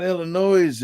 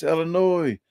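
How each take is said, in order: First: "Illinois" ending in a voiced z, like "noise"; higher, drawn-out "Illinois" with the final s sounded. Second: "Illinois" ending in "noy", no s sound; higher-pitched correction, "Illinois" with the final s left silent. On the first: Locals correcting how he says the state, "Illinois" said with a z ending. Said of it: "That's not Illinois". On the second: Retold or imitated. Locals correcting how he says the state, "Illinois" said ending in "noy". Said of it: "it's Illinois".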